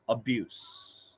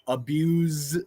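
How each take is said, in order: First: The word ends with an s sound. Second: The word ends with a z sound. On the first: It is used as a noun. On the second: It is used as a verb.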